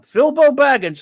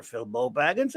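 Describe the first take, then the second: First: Loud, higher call of the name; announcing a name. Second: Said in the usual way. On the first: Pretend. Streamer greets a viewer, booming the name loudly. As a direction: belt the name like calling him into the ring.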